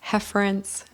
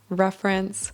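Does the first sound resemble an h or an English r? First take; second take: h; English r. First: The first sound is a breathy h-like sound. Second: The first sound is an English r. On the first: The speaker calls it wrong. "Esse som de r, eu sei, é um pouco feio. Mas é assim que a gente fala" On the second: The speaker calls it right. "instead of reference"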